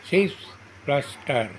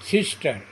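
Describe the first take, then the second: First: "সিস", pause, "plus star"; split into syllables. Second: Said in the usual way. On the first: Shown as a demonstration. Teacher showing two syllables, "সিস" and "star" said apart. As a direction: sound out "সিস" and "star" separately. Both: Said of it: "দুটি syllable থাকে তাকে ডাইসিলেবল বলে".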